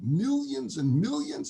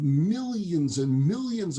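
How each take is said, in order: First: High, slow, amazed MILLIONS and MILLIONS; excited kid. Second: MILLIONS and MILLIONS, both stretched out slowly; drawn-out sales pitch. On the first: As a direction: echo it in thrilled wonder. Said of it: "He's all excited". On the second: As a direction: sell it with a long MILLIONS. Seller pitches the wagons' contents. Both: Acted.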